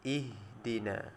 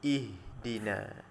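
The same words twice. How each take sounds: No difference in how they are said.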